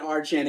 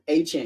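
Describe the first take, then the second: First: An R sound follows the first vowel. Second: No R sound follows the first vowel. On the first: The speaker calls it wrong. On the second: The speaker calls it right.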